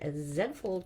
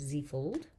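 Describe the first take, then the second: First: The letter Z is said as zed, Canadian-style. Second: The letter Z is said as zee, American-style.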